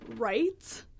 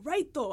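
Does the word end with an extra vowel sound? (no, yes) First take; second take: no; yes. First: The word ends cleanly on the final consonant. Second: The word ends with an added extra vowel. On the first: The speaker calls it right. "There's no O. Like, just left, right, the end" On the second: The speaker calls it wrong. "they're always like"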